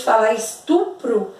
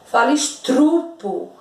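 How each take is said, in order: First: Estupro with the r after the t, stu-pro; correct estupro. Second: Estrupo with the r moved into the first syllable, stru-po; wrong estrupo. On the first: Teacher showing the correct form, estupro with stu-pro. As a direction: say estupro the right way, r in the second syllable. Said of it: "Quando alguém, ao invés de falar estupro". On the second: Teacher mimicking students' error, estrupo with stru. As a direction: say estrupo the mistaken way, r after the s-t. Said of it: "Quando alguém, ao invés de falar estupro, fala estrupo". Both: Shown as a demonstration.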